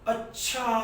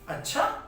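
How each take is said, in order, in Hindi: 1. इसे आश्चर्य के विस्मयादिबोधक रूप में बोला जाता है। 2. इसे प्रश्नवाचक लहज़े के साथ बोला जाता है। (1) "विस्मयादि बोधक चिन्ह लगा... आश्चर्य की बात हो रही है" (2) "यहां प्रश्नवाचक की बात हो रही है"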